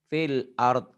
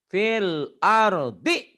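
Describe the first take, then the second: First: The phrase ends cut off, without its final vowel. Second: The phrase ends with its final vowel sounded. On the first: The reading stops here. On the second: The reading continues on.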